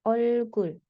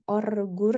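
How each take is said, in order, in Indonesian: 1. Kedua konsonan likuida dibaca L. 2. Kedua konsonan likuida dibaca R. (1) "dua-duanya dibaca L" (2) "jadi bukan orgur ya, tidak"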